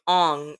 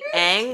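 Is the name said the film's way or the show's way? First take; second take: film's way; show's way. First: The name is said with the film's vowel. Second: The name is said with the show's vowel. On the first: This is how the film says the name. The speaker calls it wrong. "they call him Aang" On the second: This is how the show says the name. The speaker calls it right. "his name is actually Aang"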